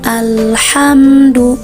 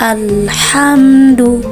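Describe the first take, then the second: No difference in how they are said.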